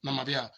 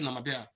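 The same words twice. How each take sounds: First: It is said quickly with a sound dropped. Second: The same.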